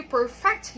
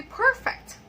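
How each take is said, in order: First: Perfect as a verb, per-FECT; stress on second syllable. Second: Perfect as an adjective, PER-fect; stress on first syllable. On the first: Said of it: "the first one is a verb". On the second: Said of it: "the second one is an adjective". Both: Shown as a demonstration.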